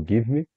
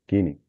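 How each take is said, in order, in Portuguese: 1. Duas palavras separadas são ditas por extenso. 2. As duas palavras se juntam em uma só palavra reduzida. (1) "que vem do give me" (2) "E o gimme"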